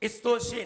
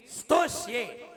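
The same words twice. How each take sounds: First: "स्तोष्ये" said as istoshye; vowel-led st in "स्तोष्ये"; wrong pronunciation. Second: "स्तोष्ये" starting straight on the s; no i before "स्तोष्ये"; correct pronunciation. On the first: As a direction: put a short i before "स्तोष्ये". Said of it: "नहीं". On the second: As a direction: sstoshye for "स्तोष्ये". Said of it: "ऐसे ही". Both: Shown as a demonstration.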